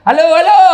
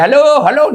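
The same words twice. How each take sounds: First: Higher, louder hellos, nobody hears; louder shouted hello. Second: High, loud phone hellos; shouting hello. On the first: Villager shouting again when nobody answers. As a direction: shout it harder. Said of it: "nggak ada dengar". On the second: Villager shouting hello into the wrong end. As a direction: call out into the handset. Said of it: "Teriak lagi". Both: Retold or imitated.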